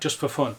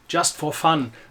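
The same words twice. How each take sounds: First: It is said with a natural English accent. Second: It is said with an exaggerated German accent. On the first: "If I was speaking English" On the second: "This really exaggerated German accent"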